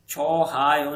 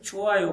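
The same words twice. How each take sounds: First: छो हायो split in two, with a clear h; छो हायो said loud with a break before हायो; wrong pronunciation. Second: छोआयो linked with no h, cho-a-yo; छोआयो said smoothly without the h; correct pronunciation. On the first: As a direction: mark the h in छो हायो as the error. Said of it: "छो हायो नहीं पढ़ना है". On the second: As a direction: blend छोआयो into one word. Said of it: "इसे छोआयो पढ़ना है". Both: Shown as a demonstration.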